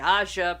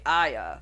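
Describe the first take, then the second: First: The middle consonant sounds like a 'j'. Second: The middle consonant sounds like a 'y'. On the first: This is how others say it. "some people might say" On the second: This is how the speaker says it. "but I say"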